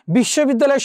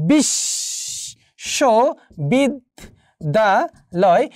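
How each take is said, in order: First: Said in the usual way. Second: বিশ্ববিদ্যালয় very slowly, split into five syllables with pauses; বিশ্ববিদ্যালয় drawn out, each syllable standing alone. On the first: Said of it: "যেমন ধরো, বিশ্ববিদ্যালয় শব্দটিতে". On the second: Shown as a demonstration. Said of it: "এই পাঁচটি অক্ষর রয়েছে".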